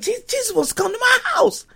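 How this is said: The voice sounds excited and delighted. Zacchaeus is thrilled that Jesus is coming. The speaker calls it right. "He's like"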